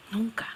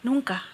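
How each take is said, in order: First: "Nunca" susurrado, casi sin voz; susurro. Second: Said in the usual way. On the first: Real, not acted. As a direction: deja caer "Nunca" en un susurro. Repeats never, then whispers it. ("Nunca" dicho en un susurro)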